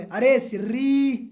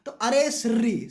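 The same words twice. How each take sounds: First: Slow drawn-out yell of "अरे Sirri"; hammed-up angry shout at the partner; mock angry shout. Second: Said in the usual way. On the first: Student yells at partner who kicked curd, slow mock shout. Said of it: "चिल्ला के बोले". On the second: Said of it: "mnemonic repeated".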